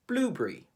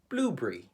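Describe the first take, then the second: First: Spoken with a British English accent. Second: Spoken with a British English accent.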